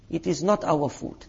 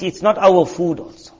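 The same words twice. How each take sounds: First: Not said softer, almost under the breath; quiet firm not; soft emphatic repeat. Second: Not leaned on in a plain voice; stress on not. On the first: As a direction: drop the voice and press not. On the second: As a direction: press the word not. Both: Shown as a demonstration.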